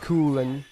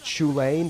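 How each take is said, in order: First: The name begins with a k sound. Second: The name begins with a ch sound. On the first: The speaker calls it right. "It's like it's like Kulen" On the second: The speaker calls it wrong. "That's not how you pronounce it"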